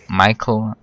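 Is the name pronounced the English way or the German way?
English. The name is pronounced the English way.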